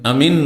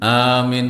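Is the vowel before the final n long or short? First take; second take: short; long. First: The vowel before the final n is short. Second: The vowel before the final n is long. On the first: The speaker calls it wrong. "আমিন নয়" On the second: The speaker calls it right. "আমিন মদেট, হ্যাঁ মিন, ওখানেও টান"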